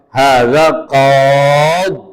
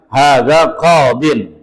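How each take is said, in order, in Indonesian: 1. Kata ini berhenti lebih awal, berakhir pada qad. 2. Kata ini diakhiri dengan bunyi -in yang penuh.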